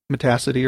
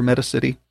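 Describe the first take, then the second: First: Metacity said muh-TASS-ih-tee; second-syllable stress. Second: Metacity said MET-uh-sit-ee; first-syllable stress. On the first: Teacher covering both pronunciations for learners, Metacity as muh-TASS-ih-tee. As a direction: punch TASS in Metacity, like audacity. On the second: Teacher covering both pronunciations for learners, Metacity as MET-uh-sit-ee. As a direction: open Metacity on a stressed MET, then "city". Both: Shown as a demonstration. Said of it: "I don't know how you pronounce it".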